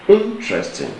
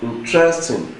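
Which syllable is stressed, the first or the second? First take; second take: first; second. First: The stress is on the first syllable. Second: The stress is on the second syllable. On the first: The speaker calls it right. "Meaning that the stress is on the first syllable" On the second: The speaker calls it wrong. "then it has stress on the second syllable too"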